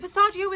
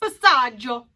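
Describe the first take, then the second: First: It is pronounced with an anglicized sound. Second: It is pronounced with an Italian sound.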